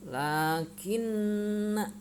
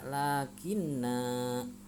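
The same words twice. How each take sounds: First: The final vowel is kept short. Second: The final vowel is drawn out long. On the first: The speaker calls it right. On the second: The speaker calls it wrong.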